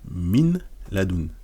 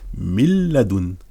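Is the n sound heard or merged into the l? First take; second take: heard; merged. First: The n sound is pronounced before the l. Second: The n merges fully into the l, without nasality. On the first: "normalement on dirait" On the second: "mais on va dire mil ladun"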